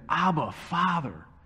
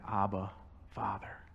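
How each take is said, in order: First: It is cried out intensely from deep within. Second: It is said plainly and casually.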